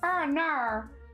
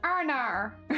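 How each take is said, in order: First: It is said in an attempted Australian accent. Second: It is said in an attempted Australian accent.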